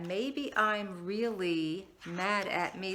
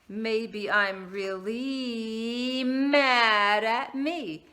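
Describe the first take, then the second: First: It is said at normal pace with a pause. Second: It is said slowly, stretched out.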